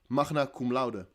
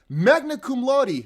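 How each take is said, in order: First: It is said with a Dutch pronunciation. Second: It is said with an attempted English pronunciation. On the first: "In Dutch, it's just magna cum laude" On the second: "I don't know how you say it in English"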